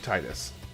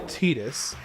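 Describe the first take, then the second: First: The first part sounds like the word 'tide'. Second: The first part does not sound like 'tide'. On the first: This is the pronunciation that fits the water theme. The speaker calls it right. "It makes so much more sense to be Titus" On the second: This is the official pronunciation of the name. The speaker calls it wrong. "his name is officially Titus"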